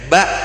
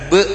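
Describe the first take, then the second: First: The vowel is an open 'a' sound. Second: The vowel is an 'e' sound. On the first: The speaker calls it right. "dibaca dengan mulut terbuka, yakni dengan suara a" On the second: The speaker calls it wrong. "hati-hati dengan yang Madura"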